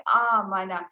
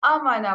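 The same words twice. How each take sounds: First: آمنا with the opening vowel drawn out slowly; correct reading demo. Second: آمنا clipped short at the start, shown as the mistake; wrong reading demo. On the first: Teacher gives the student the correct long آمنا, slowly. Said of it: "جبکہ یہ لفظ ہے آمنا". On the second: Teacher shows the student the wrong short آمنا. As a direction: say آمنا short, as the common error. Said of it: "غلط پڑھ دیتے ہیں". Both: Shown as a demonstration.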